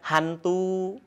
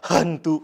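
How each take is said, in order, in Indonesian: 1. Bunyi h-nya lembut dan biasa. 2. Bunyi h-nya dipaksakan dan berlebihan. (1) "biasa kan?" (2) "tidak seperti itu"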